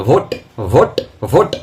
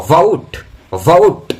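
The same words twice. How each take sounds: First: ভোট with a short pure o; common wrong pronunciation. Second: ভোট loud as "vout", gliding o to u; correct pronunciation. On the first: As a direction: say ভোট as clipped "bhot". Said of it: "ভোট নয়". (ভোট-এর ভুল উচ্চারণ, ছোট ও) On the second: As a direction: draw ভোট out into vo-oot. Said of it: "উচ্চারণটা হবে ভোট". (ভোট-এর সঠিক উচ্চারণ, ভোউট) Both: Shown as a demonstration.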